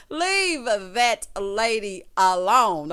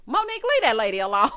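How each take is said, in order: First: Loud and very slow, every word stretched; drawn-out mock scolding. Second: Loud, laughing call-out; mock scolding. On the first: Host repeating the order to imagined Monique, slow loud scolding. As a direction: playfully drag out each word at full voice. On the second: Host telling imagined Monique to back off, loud playful scolding. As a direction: playfully shout her down, breaking into laughter.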